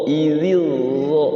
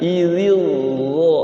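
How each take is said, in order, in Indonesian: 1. Konsonan kedua adalah bunyi 'dh' yang berat dan bertekanan. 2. Konsonan kedua adalah bunyi 'dh' yang berat dan bertekanan.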